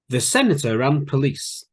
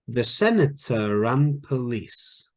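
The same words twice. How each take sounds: First: The sentence is spoken at a quicker pace. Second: The sentence is spoken at a slower pace.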